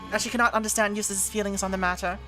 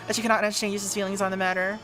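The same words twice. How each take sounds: First: It is read in a put-on accent. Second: It is read in a normal voice.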